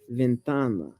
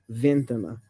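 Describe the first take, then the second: First: The stress is on the second-to-last syllable. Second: The stress is not on the second-to-last syllable. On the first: The speaker calls it right. "the stress typically falls on the penultimate" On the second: The speaker calls it wrong. "not ventana"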